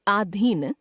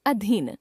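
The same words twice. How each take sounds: First: आधीन opening on long "aa"; mispronounced first vowel. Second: Said in the usual way. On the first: Shown as a demonstration. Teacher showing a common error, आधीन with long first vowel. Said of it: "अशुद्ध". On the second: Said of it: "शुद्ध".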